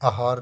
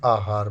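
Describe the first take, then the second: First: आहार with a short opening vowel; wrong form. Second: आहार with long opening आ; correct form. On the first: Teacher showing the error, आहार with short first a. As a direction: say आहार as a-haar. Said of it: "आहार नहीं". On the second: Teacher correcting it, आहार with long first aa. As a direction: say आहार as aa-haar. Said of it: "बड़ा आ". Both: Shown as a demonstration.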